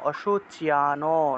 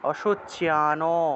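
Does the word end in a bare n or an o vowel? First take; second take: o vowel; o vowel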